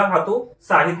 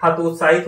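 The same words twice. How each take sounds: First: हतोत्साहित as "hato saahit", dropping the middle "t"; wrong pronunciation. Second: हतोत्साहित with a clear "t" before "saahit"; correct pronunciation. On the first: Teacher showing students the faulty word, mispronounced. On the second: Teacher giving students the right word, correct pronunciation. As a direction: say हतोत्साहित as "ha-tot-saa-hit". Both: Shown as a demonstration. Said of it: "नहीं होगा".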